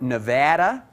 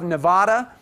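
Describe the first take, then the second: First: The name is said the Midwestern way. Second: The name is said in a non-Midwestern way.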